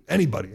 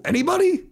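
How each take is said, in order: First: Said in the usual way. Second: High, loud questioning call; rhetorical question. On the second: Real, not acted. Host asking listeners for dissenters, high and loud. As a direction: call out to the room, expecting no answer.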